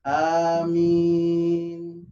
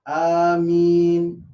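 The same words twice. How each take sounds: First: The second vowel is held moderately long. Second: The second vowel is held briefly. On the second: "bisa dua"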